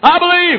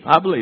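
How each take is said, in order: First: It is said forcefully, with strong energy. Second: It is said weakly, with little energy. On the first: The speaker is full of conviction. The speaker calls it right. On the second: The speaker lacks conviction. The speaker calls it wrong.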